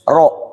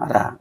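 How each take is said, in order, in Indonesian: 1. R-nya berat dengan vokal o yang membulat. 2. R-nya ringan dengan vokal a yang terbuka. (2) "Kita itu biasanya ra. ... Itu salah"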